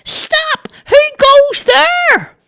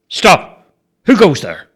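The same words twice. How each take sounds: First: Very high, slow, louder Stop; straining to sound bigger; squeaky high shout. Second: Firm, loud Stop with force; authoritative challenge. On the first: A narrator's reading. Charlie shouts his challenge again, squeaky and louder. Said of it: "Charlie said". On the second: Shown as a demonstration. Bobo demonstrates the challenge with authority, firm and loud. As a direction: show him how a guard commands. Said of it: "put some authority in your voice".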